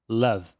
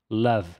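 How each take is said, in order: No difference in how they are said.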